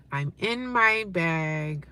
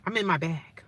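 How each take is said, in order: First: Very slow, stretched words, softer; drawn-out. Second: Said in the usual way. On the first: Real, not acted. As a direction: savour each word slowly. Same line repeated very slowly.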